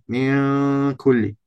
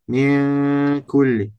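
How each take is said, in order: Both takes have the same delivery.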